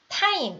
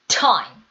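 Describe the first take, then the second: First: The t is a Korean-style ㅌ sound. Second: The t is a strongly aspirated English t. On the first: The speaker calls it wrong. "이게 아니라" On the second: The speaker calls it right. "이렇게 소리가 나셔야겠죠?"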